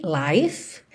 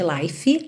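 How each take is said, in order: First: "life" ending on the F with no vowel; correct pronunciation. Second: "life" with an extra E vowel at the end; wrong pronunciation. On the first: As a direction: clip "life" right after the F. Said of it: "lembra que não existe life". ("life" terminando seco no F) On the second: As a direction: say "life" as "laifi". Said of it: "não existe life". ("life" com E a mais no final) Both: Shown as a demonstration.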